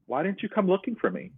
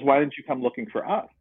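First: Asking plainly why she never came, ending on me; a hurt question landing on me; stress on me. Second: Defensive comeback leaning on us; stress on us. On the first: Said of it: "and I said to her". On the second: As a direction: retort rising on us, turning the question back. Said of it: "she goes". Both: Retold or imitated.

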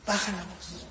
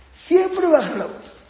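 First: Markedly softer, restrained delivery; lowered voice. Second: "Siempre" pitched high and drawn out; slow, high emphasis on "Siempre"; emphatic rule. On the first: Teacher shows parents how to correct, lowered voice. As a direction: drop the volume to show restraint. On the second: Teacher drives the rule home to parents, emphatic. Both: Shown as a demonstration.

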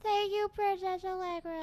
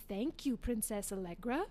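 First: Put-on high, loud little girl reciting. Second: Narrator prompting. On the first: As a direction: imitate a small child saying her line. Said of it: "And the little girl". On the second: Retold or imitated. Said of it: "my dad was the narrator and would say".

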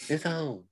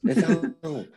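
First: Said in the usual way. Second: Louder, higher hyped call; excited hype. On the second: Real, not acted. Hyping up a podcast feud, loud and high. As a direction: announce the fight is on.

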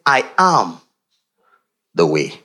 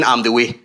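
First: Slow solemn declaration, deep fall on way; "I am the way" proclaimed, the voice dropping low on "way"; declaring. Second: Said in the usual way. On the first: Shown as a demonstration. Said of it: "He was declaring". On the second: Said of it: "Much more than just saying".

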